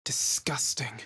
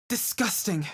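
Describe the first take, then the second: First: Hushed, revolted whisper; "Disgusting" whispered low. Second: Said in the usual way. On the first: Acted.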